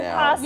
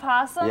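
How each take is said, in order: First: The word begins with a short vowel before 'p'. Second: The word begins directly with the 'p' sound. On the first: The speaker calls it right. "they're called" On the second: The speaker calls it wrong. "not possums"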